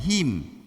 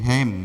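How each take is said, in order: First: The final syllable has a close 'i'-like vowel. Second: The final syllable has an open 'e'-like vowel. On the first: The speaker calls it wrong. "bukan him" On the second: The speaker calls it right. "Hem bukan him. Ini hem"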